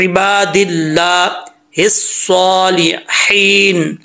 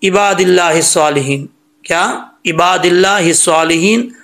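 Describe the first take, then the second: First: Slow इबादिल्लाहि सालिहीन with throaty ain and h; correct recitation. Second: इबादिल्लाहि सालिहीन quick, with plain "i" and light h; common mistake. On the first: Teacher contrasting it with the mistake, careful recitation. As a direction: stretch इबादिल्लाहि सालिहीन, full "saw", long "heen". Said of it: "में कितना फ़र्क है". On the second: Teacher showing what people read, uncareful recitation. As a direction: run इबादिल्लाहि सालिहीन along without throat sounds. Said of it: "यहाँ पर लोग क्या पढ़ते हैं". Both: Shown as a demonstration.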